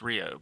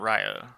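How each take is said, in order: First: The name is said like ree-oh. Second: The name is said like rye-oh. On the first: The speaker calls it right. "It's Rio" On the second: The speaker calls it wrong. "It's not Ryo"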